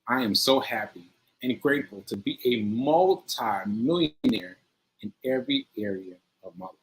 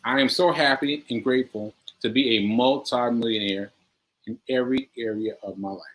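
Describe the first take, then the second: First: It is said with strong emotional feeling. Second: It is said plainly, without much feeling.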